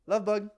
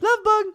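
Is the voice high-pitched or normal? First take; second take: normal; high-pitched. First: It is said casually in a normal voice. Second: It is said in a high-pitched voice.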